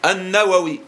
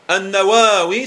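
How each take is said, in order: First: The second a sound is kept short. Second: The second a sound is held long. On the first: "sans la prolongation" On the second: "il y a un petit chapeau sur le deuxième A"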